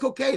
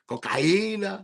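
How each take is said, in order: First: The word is said plainly. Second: The word is said with extra force.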